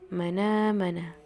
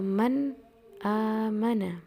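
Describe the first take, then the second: First: The n links straight into the vowel. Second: A glottal stop separates the two words. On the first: "memindahkan harokat hamzah kepada harokat pada nun matinya" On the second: "lafaz eh, man amana"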